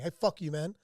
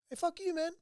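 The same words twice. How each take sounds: First: It is said in a threatening, hostile tone. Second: It is said in a light, friendly tone. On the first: The speaker is looking for a fight. The speaker calls it wrong. "you'd be like, dude, where's my knife" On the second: The speaker means no harm. The speaker calls it right. "You might be like, oh, good"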